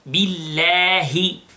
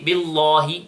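First: The 'l' sound is light and thin. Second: The 'l' sound is heavy and thick. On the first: The speaker calls it right. "the name of Allah here is light" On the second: The speaker calls it wrong. "we don't say billahi, no"

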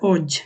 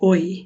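First: The word ends in a 'j' sound, as in jam. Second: The word ends in a 'y' sound, like oy. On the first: The speaker calls it wrong. "বলা হচ্ছে না" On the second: The speaker calls it right. "এটা হবে ওই"

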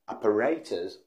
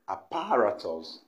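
First: The stress falls on the third syllable. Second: The stress falls on the second syllable. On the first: The speaker calls it right. "The right pronunciation is apparatus" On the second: The speaker calls it wrong. "What people say, and that's always wrong, is apparatus"

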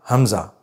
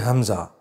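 No difference in how they are said.

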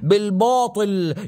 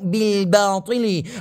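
First: The b sound is made heavy and thick. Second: The b sound is light and plain. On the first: The speaker calls it wrong. "في ناس تفخمه زيادة عن اللزوم" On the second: The speaker calls it right. "يا أخي مو باطل"

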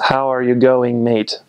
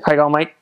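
First: The words are said separately and fully. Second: The words run together into one sound. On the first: "It's how are you going, mate?" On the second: "Kind of like one little sound there"

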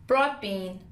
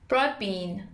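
The two takes are said the same way.

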